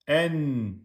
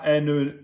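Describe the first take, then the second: First: The n is held smoothly without bouncing. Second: The n ends with a short bouncing release. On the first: The speaker calls it right. "Non. En" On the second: The speaker calls it wrong. "on ne fait pas de qalqala. C'est pas n"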